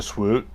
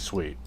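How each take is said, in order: First: The vowel is an 'oo' sound. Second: The vowel is an 'ee' sound. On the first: The speaker calls it wrong. "I love it when A I gets the word swoot wrong" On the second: The speaker calls it right. "It's supposed to be sweet"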